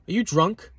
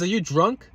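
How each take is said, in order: First: High, incredulous question; mock his rude question; incredulous man. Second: High, stunned repeat of the question; incredulous man. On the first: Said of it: "he says". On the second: Retold or imitated. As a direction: quote him in disbelief. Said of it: "He says".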